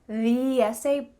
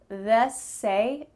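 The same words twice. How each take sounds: First: The word 'the' is said fully as 'thee'. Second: The word 'the' is cut to a quick 'th'. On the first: "that full correct form" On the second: "we just use th, th in front of a vowel word"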